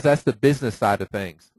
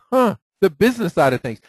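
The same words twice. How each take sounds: First: Said in the usual way. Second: Mock-surprised repeat, a little higher and louder; sarcastic echo. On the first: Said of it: "she says". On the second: Echoing the agent's excuse with sarcastic disbelief. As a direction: throw her words back at her with a scoff. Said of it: "I'm like".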